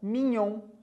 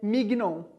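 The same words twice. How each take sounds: First: The gn is said like ny. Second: The gn is said with a hard g. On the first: The speaker calls it right. "A gente fala mignon" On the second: The speaker calls it wrong. "a gente não fala, por exemplo, filé mignon"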